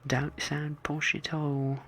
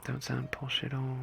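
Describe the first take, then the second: First: Slow, higher put-on accent; exaggerated posh denial. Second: Put-on accent without poshness; not posh accent. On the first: Joking about sounding posh, slow exaggerated accent. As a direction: stretch it out slowly, higher, accent hammed up. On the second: Joking about sounding posh, first un-posh take. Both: Shown as a demonstration.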